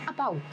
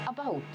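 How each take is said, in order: Both takes have the same delivery.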